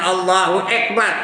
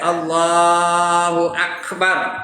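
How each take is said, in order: First: The k of Akbar is cut off short. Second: The k of Akbar is released with air. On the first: The speaker calls it wrong. "Jangan ... Ek begini" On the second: The speaker calls it right. "Kena sebut betul-betul. ... Ak. Angin keluar"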